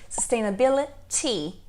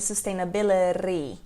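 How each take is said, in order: First: The last T is a crisp, full T. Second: The last T is soft, not a full T.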